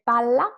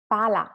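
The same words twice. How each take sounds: First: Palla with a long, strong L; double L. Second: Pala with a short, light L; long A, brief L in pala; single L. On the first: Teacher contrasts words for students, palla with held LL. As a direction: hold the LL in palla. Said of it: "two L". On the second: Teacher contrasts words for students, pala with one L. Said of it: "one L". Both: Shown as a demonstration.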